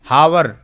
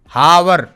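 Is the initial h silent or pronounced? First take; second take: pronounced; pronounced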